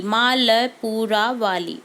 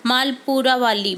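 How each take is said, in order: First: मालपुरा वाली said very slowly, stress on मालपुरा; slow dictation. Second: Said in the usual way. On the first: Shown as a demonstration. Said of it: "teacher dictates slowly". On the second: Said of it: "teacher reads answer".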